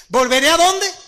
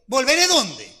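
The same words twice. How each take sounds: First: High, loud with a stressed in ¿Volveré a dónde?; ¿Volveré a dónde? with a emphasized. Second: Said in the usual way. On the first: Shown as a demonstration. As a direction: hit the small word a hard. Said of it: "yo soy detallista en cada palabra". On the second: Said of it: "¿Leyó bien?".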